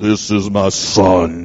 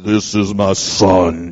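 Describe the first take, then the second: First: It is said in a very deep voice. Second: It is said in a very deep voice.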